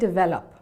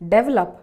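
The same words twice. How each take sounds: First: The stress does not fall on the first E. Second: The stress falls on the first E. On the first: The speaker calls it right. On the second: The speaker calls it wrong.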